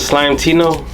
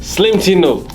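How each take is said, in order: First: The first word is said like 'slime'. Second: The first word is said like 'slim'. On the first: The speaker calls it wrong. "How do you pronounce it?" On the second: The speaker calls it right. "It's actually Slim"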